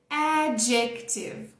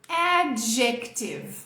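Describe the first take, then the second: No difference in how they are said.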